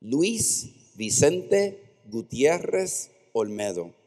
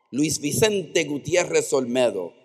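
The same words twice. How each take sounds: First: Luis Vicente Gutierrez Olmedo spelled out slowly, each syllable clear; sounding out Luis Vicente Gutierrez Olmedo like a new word; slow careful Spanish name. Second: Luis Vicente Gutierrez Olmedo at normal pace, Spanish vowels; fluent Spanish name. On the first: Mother teaching her son his full name, slow and careful. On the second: Son repeating his full name back, now fluently. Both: Shown as a demonstration. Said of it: "my mother taught me my name".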